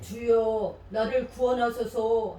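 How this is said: It is read in a deep Peter voice.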